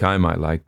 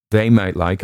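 First: I pressed, might left light; stress on I. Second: Might lifted and leaned on; stress on might. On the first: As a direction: lean on I, as in me personally. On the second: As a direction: push the word might, not they. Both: Shown as a demonstration.

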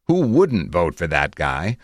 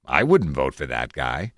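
First: WOULDN'T stressed, rising to a question; rhetorical question. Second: WOULDN'T stressed, then dropping low; sceptical retort. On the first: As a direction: make "who WOULDN'T vote for that guy" sound obvious. Rhetorical reading set against line 48. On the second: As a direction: counter it with a low-pitched "I WOULDN'T". Sceptical counterpart to line 45. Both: A narrator's reading.

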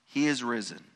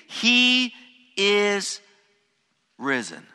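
First: Said in the usual way. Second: High, loud, ringing cry of he is risen; angel's proclamation. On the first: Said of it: "This statement is emphatic". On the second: Acted. The angel tells the women, proclaiming loud and high. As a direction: announce it like a triumphant herald. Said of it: "The angel tells them".

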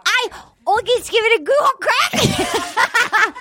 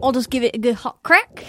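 First: An Australian accent that slides toward Scottish, pitched high and slowed; a hammed-up Australian try, pitched high and drawn out; bad Australian accent. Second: Australian accent attempt. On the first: Host retrying her Australian accent, hammed-up and drifting Scottish. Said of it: "It's like Scottish or something". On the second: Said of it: "Let's hear yours, [name]". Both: Shown as a demonstration.

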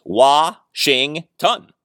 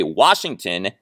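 First: Wa-shing-ton, each syllable slow and separate; split into syllables. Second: Said in the usual way. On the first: Shown as a demonstration. Counting out the syllables for listeners, slow. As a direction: spell out Wa-shing-ton beat by beat. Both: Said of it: "is three syllables".

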